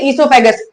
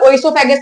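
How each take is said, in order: First: The word begins with an 'ee' sound. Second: The word begins with an audible 'o' sound. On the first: The speaker calls it right. "ओ यहाँ पे silent रहता है" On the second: The speaker calls it wrong. "ओइसोफेगस नहीं बोलते"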